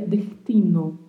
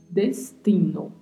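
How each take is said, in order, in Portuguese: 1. O S soa como um R bem suave. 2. O S é pronunciado de forma clara e nítida. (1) "um som como se fosse um som de um R bem, bem, bem suave" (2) "Esta é a forma correta de falar"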